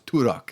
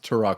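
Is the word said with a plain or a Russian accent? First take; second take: Russian; plain. First: It is said in an imitated Russian accent. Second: It is said in a plain American accent. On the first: "He was like a Russian kid, so I remember how he pronounced Turok was" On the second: "how he pronounced Turok"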